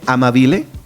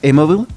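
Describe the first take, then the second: First: It is read as spelled, ending in '-bile'. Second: It sounds like the word 'amable'. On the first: "se escribe Amabile" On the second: "creo que se pronuncia Amabile ... suena como amable"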